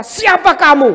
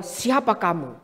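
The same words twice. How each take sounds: First: Higher, louder indignant snap; indignant challenge. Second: Lower, softer, calm turned-back question; calm counter-question. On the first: Believer voiced grumbling at an oppressor, indignant snap. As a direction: challenge them, offended. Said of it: "Kita mulai berkata". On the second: Pastor answering a counselee, calm low counter-question. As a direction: gently turn the question back. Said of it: "Saya cuma jawab sama dia". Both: Retold or imitated.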